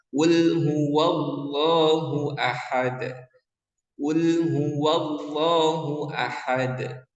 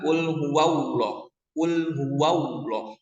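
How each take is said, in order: First: Slow chanted qul huwallahu ahad, heavy lam; chanted, recite qul huwallahu ahad slowly, thick Allah; correct tajwid chant. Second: Qul huwallah with Allah as "auloh", W glide; wrong thin Allah. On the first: Teacher models the right recitation, slow chant. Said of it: "seharusnya adalah". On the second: Teacher shows the wrong way, Allah with W. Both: Shown as a demonstration.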